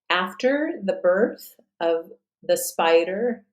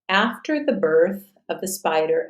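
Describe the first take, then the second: First: It is read slowly and carefully. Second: It is read at a natural speed. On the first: "I'll read it at a slower pace" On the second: "and then at a natural pace"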